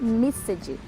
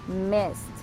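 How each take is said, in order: First: The ending is pronounced as an extra 'ed' syllable. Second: The ending is pronounced as a short 't' sound. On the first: The speaker calls it wrong. "não vai ficar missed" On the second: The speaker calls it right. "No, vai ficar missed"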